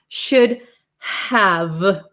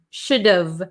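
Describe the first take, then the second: First: Both words are fully pronounced, with H and V. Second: The H is dropped, leaving a contracted V ending. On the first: "those consonants need a lot of power" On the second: "we get rid of this H"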